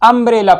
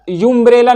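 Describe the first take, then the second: First: The word begins with an 'uh' sound. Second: The word begins with a 'yoo' sound. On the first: The speaker calls it right. "अम्ब्रेला पढ़ते हैं" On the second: The speaker calls it wrong. "यूम्ब्रेला नहीं पढ़ेंगे"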